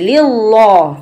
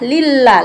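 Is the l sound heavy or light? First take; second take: heavy; light. First: The l is said heavy and dark. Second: The l is said light and thin. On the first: The speaker calls it wrong. "Kalau tebal bacanya begini" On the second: The speaker calls it right. "tapi ini adalah lillah"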